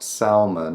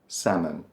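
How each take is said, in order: First: An L sound is pronounced. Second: No L sound is pronounced. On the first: The speaker calls it wrong. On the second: The speaker calls it right.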